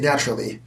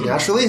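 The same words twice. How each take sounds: First: The pitch falls at the end. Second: The pitch rises at the end. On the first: This is how Americans say it. "Americans go down. So so they'll say naturally" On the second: This is how Canadians say it. "Whereas we'll say naturally, like, it kind of goes up"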